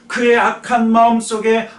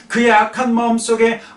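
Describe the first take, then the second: No difference in how they are said.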